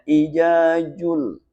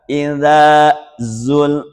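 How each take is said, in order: First: The z and dh sounds are said as j. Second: The z and dh sounds are kept distinct. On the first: The speaker calls it wrong. "orang dulu di Betawi itu susah bedain antara za, ja" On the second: The speaker calls it right. "Sebab itu ada da, ada za"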